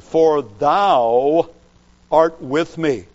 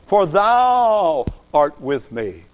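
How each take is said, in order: First: Said in the usual way. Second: "thou" stressed and drawn out, slow; emphasis on thou. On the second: Shown as a demonstration. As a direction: lean hard on "thou", slower overall. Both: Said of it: "the word thou is the emphatic personal pronoun".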